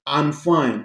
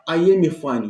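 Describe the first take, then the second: First: I and am are joined into one syllable. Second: I and am are said as separate full words. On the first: The speaker calls it right. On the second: The speaker calls it wrong. "Não diga jamais"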